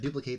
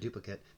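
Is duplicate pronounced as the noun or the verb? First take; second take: verb; noun. First: The word is pronounced the verb way. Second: The word is pronounced the noun way. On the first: It names an action of copying. "if I'm gonna duplicate these duchies and it's a verb" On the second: It names a thing or card. "if it's I'm gonna gain a duplicate, then it's a it's a noun"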